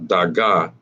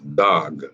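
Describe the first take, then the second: First: Both syllables are said with their vowels. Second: The final vowel is dropped into one syllable. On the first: The letters are not joined by a connector. The speaker calls it wrong. "it becomes not daga" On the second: The letters are joined by a connector. The speaker calls it right. "it becomes dag"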